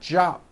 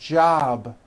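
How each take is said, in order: First: The final consonant is a voiceless p. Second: The final consonant is a voiced b. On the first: The speaker calls it wrong. "It's not jop with an unvoiced P" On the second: The speaker calls it right. "ends in a B, which is a voiced sound"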